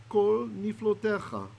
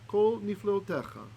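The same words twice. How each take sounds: Both takes have the same delivery.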